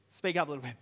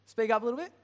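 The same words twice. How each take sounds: First: Said in the usual way. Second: Higher and louder call across the room. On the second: Real, not acted. Preacher calling to Chris far off in the foyer, louder. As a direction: raise your voice to reach the foyer.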